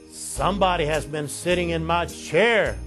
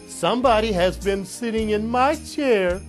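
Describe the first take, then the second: First: It is said in a great big voice. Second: It is said in a wee little voice.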